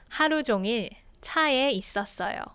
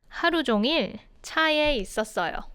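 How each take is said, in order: Both takes have the same delivery.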